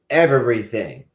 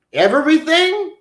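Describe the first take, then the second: First: Said in the usual way. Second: "Everything?" jumps much higher as an incredulous question; disbelieving question. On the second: Pretend. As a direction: ask it back high, in disbelief. Asks back in disbelief.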